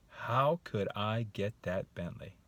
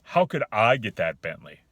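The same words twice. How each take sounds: First: Slow, musing question; open wondering. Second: Loud, dismissive rhetorical question; disbelieving tone. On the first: Man considering the Bentley, wondering. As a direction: turn it over thoughtfully, wanting an answer. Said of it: "I just said the same exact sentence". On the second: Man rejecting the offered Bentley, disbelieving. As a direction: throw it out as a challenge, not a question. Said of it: "You hear the differences?". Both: Shown as a demonstration.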